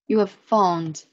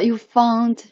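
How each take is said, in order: First: The word 'have' is said in full. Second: The word 'have' shrinks to a 'v' sound.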